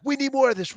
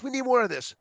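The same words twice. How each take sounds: First: Higher, eager plea; first eager ask; begging. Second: Begging again. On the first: Students begging for more, high eager plea. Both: Retold or imitated. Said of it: "they will beg us".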